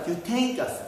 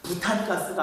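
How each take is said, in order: First: The word is said as 'byutein-gaseu'. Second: The word is said as 'butan-gaseu'. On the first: This is the current, more accurate form of the name. The speaker calls it right. "발음을 좀 정확히 바뀌어가지고" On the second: This is the older form of the name. The speaker calls it wrong. "부탄가스가 아니라"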